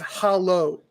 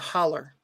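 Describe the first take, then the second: First: The word ends with an 'oh' sound. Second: The word ends with an 'er' sound. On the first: This is the standard form of the word. "It's hollow, H O L L O W" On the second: This is how local people say it. "But locally they pronounce it a holler"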